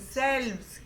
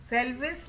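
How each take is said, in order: First: The v runs straight into the final s. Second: An extra vowel is sounded before the final s. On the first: The speaker calls it right. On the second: The speaker calls it wrong. "सेल्विस नहीं"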